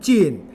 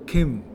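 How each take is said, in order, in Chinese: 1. 普通话读，开头是j。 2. 闽南语读，开头是k。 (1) "只是你用汉语普通话念浸" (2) "我们闽南话的浸就Kim"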